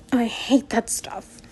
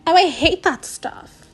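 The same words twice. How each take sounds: First: Said in the usual way. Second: Disgusted. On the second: Acted. Retake, higher louder.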